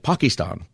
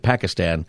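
First: Pakistan is said with a more local-style pronunciation. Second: Pakistan is said with a common American pronunciation. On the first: This is how someone who lived there says the name. "but he would always say Pakistan. But he lived there for a while. He probably knows" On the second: This is how most Americans say the name. "We always say Pakistan"

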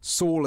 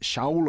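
First: The name begins with an s sound. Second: The name begins with an sh sound. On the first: This is the usual English form of the name. "Saul is how we pronounce it in English" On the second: This is the original Hebrew form of the name. "but really it's Shaul of Tarsus"

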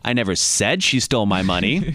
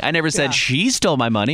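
First: The stress is on the word 'said'. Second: The stress is on the word 'she'.

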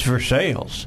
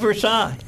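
First: It is pronounced the local Kentucky way. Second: It is pronounced the usual non-Kentucky way. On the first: The speaker calls it right. "It's Versailles" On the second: The speaker calls it wrong. "In Kentucky, it's not Versailles"

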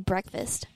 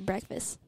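First: The final T sound is clearly pronounced. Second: The final T sound is left off. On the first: "I don't say breakfast" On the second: "I don't say the T because it's hard for me"

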